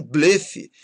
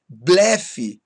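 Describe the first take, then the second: First: BLEFE with closed ê, the rejected form; timbre fechado, errado. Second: BLEFE slowly with open é; timbre aberto. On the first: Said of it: "e não blefe". (blefe com ê fechado) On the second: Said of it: "têm timbre aberto". (blefe com é aberto) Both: Shown as a demonstration.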